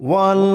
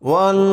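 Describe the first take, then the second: The two takes are said the same way.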